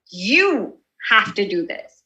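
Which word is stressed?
you. The stress falls on the word you. The listener is personally targeted. "I point to you and you feel like it's geared towards you"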